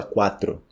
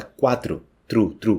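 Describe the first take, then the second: First: "quatro" with full final O; unnatural pronunciation. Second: "quatro" as KWA-tru; natural Portuguese pronunciation. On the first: Teacher shows what nobody says, unnatural pronunciation. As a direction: say "quatro" as spelt, clear tro. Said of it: "ninguém fala quatro". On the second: Teacher shows the everyday form, final-u pronunciation. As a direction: echo the end of "quatro" as "Tru, tru". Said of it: "como se fosse com U". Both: Shown as a demonstration.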